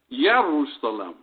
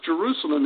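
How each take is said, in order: First: The word begins with a Y sound. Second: The word begins with a J sound. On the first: The speaker calls it right. "it was Yerusalem. The J has a Y sound" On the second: The speaker calls it wrong. "Jerusalem was not pronounced Jerusalem"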